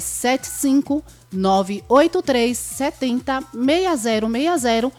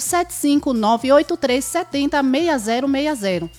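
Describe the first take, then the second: First: The number is said slowly. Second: The number is said fast.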